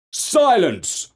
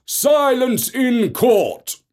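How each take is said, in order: First: Raised, higher call; judge calling for silence. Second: Slow commanding call. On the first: Judge silencing the noisy court, raised call. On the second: Judge hammering for order over the uproar, slow commanding call. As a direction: Silence in court drawn out slowly, higher. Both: Acted. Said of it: "called the judge".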